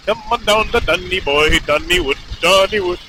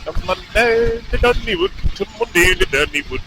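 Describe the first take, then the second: First: Put-on botched Irish accent that slips into Indian; Irish accent sounding Indian. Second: Attempted Irish that comes out more Scottish; Irish accent turned Scottish. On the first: Rider testing an Irish accent aloud, comes out sounding Indian. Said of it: "That sounded Indian". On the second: Rider having another go at Irish, lands on a Scottish accent. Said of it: "It's, like, more Scottish".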